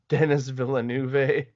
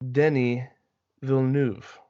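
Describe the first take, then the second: First: The name is said with an English pronunciation. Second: The name is said with a French pronunciation. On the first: The speaker calls it wrong. "A lot of people go" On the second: The speaker calls it right. "I have pronounced that perfectly for anyone who is French"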